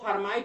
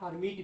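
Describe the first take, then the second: First: The second syllable has a long 'ai' vowel. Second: The second syllable has a short 'i' vowel. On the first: "इसको हर्माइट भी पढ़ते हैं" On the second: "या हर्मिट भी पढ़ते हैं"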